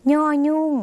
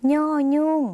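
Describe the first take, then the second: First: ย่อยุ่ง said high with a nasal ny start, not like ยอยักษ์; nasal ny sound. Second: ย่อยุ่ง repeated high with a nasal ny onset; nasal ny sound again. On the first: Teacher models ย่อยุ่ง for viewers with nasal ny sound. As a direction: give ย่อยุ่ง a clear nasal ny onset. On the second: Teacher repeats ย่อยุ่ง with nasal ny for viewers. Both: Shown as a demonstration. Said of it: "ออกเสียงไม่ใช่ยอยักษ์".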